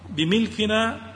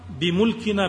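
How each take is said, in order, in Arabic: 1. تأتي بعد الميم حركة i. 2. تأتي بعد الميم حركة u. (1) "وأما الكسر فهو بمعنى ملك الشيء" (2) "بضم الميم"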